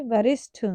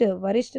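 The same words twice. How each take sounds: First: वरिष्ठ with aspirated ṭh; correct pronunciation. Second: वरिष्ठ with unaspirated ṭ; wrong pronunciation. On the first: Teacher correcting the error, वरिष्ठ with aspirated ṭh. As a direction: say वरिष्ठ ending in a puffed ṭh. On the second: Teacher showing the error, वरिष्ठ without aspiration. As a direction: say वरिष्ठ ending like varisht. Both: Shown as a demonstration. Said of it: "वरिष्ठ नहीं".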